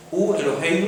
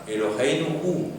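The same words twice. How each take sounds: First: "hu" punched higher and louder at the front; stress on hu. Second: Slow, deliberate "Eloheinu" set at the front; stress on Eloheinu. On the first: Teacher quizzing the class, "hu" much higher and louder. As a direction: hit "hu" hard, let "Eloheinu" follow. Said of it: "¿quién recibe el énfasis?". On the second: Teacher showing students the emphasis, dwelling slowly on "Eloheinu". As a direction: weigh each syllable of "Eloheinu" slowly. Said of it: "el énfasis está en nuestro Dios, porque es la primera palabra". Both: Shown as a demonstration.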